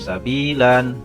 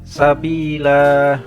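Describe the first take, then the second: First: The word ends with an added n sound. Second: The word ends on a long a vowel. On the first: The speaker calls it wrong. "Bacanya bukan sabilan" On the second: The speaker calls it right. "mat iwat, karena ada fathah yang terletak pada akhir kalimat dan dibaca wakof berhenti"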